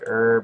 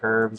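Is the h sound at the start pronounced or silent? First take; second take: silent; pronounced. First: The word starts with no h sound. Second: The word starts with an audible h sound. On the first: "even though it's pronounced like" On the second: "like with the H"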